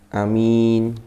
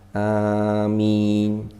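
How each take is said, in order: First: The first vowel is said short. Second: The first vowel is drawn out long. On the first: The speaker calls it wrong. "ada yang membaca a-nya pendek bil qasri" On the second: The speaker calls it right. "Bil maddi, a-nya itu panjang"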